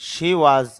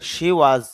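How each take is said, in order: Both takes have the same delivery.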